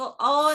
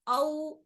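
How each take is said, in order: First: "औ" said as the wrong, fuller vowel the pupil should avoid; wrong pronunciation. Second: "औ" said softly and quickly, as the soft waw-e-leen; correct soft diphthong. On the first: Teacher showing the pupil how not to say "औ". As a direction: demonstrate the incorrect "औ" for contrast. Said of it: "औ नहीं बोलना है". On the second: Teacher showing the pupil the right soft "औ". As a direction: glide "औ" gently and short, not pressed. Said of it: "औ ऐसा पढ़ना है इसको". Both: Shown as a demonstration.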